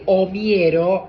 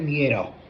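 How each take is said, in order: First: An open O vowel is clearly heard first. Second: The O vowel is guttural and barely heard. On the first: The speaker calls it wrong. "abriendo la O así" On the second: The speaker calls it right. "Siempre es miero"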